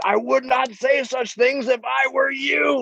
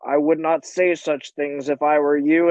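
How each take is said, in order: First: Higher, slow, drawn-out threat; hammed-up menacing warning; mock menacing. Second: Level, understated imitated threat; lightly acted calm menace; calm warning. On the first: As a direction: lean slowly into each word as a threat. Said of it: "in a menacing way". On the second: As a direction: quote it very calmly, no push. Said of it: "very calmly like".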